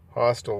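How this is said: It is said in an American accent.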